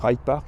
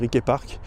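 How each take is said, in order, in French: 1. Le nom se prononce à l'anglaise. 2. Le nom se prononce à la géorgienne. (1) "je le dis en anglais" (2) "en mode géorgien"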